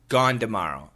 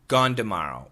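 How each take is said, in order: First: Tomorrow begins with a D sound. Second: Tomorrow begins with a D sound.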